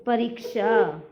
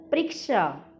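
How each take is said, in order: First: परीक्षा in full, "pa-reek-sha"; correct परीक्षा. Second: परीक्षा with the first vowel dropped, "priksha"; mispronounced परीक्षा. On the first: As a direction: sound the short a after p in परीक्षा. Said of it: "और शुद्ध रूप क्या होते हैं". (परीक्षा का पूरा उच्चारण, "प-री-क्षा") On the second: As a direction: run p and r together in परीक्षा. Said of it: "अशुद्ध शब्द". (परीक्षा का गलत उच्चारण, "प्रीक्षा") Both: Shown as a demonstration.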